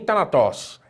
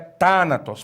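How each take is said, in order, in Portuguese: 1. A tônica cai em uma sílaba posterior. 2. A tônica cai na primeira sílaba. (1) "Não é thanatos" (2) "É thanatos. ... acento agudo que eu vejo na antepenúltima sílaba"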